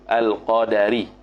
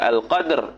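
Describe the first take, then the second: First: A short a vowel follows the d sound. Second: No vowel follows the d sound. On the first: The speaker calls it right. "bi fathid dali dengan fathah dal" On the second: The speaker calls it wrong. "Bukan al qadar"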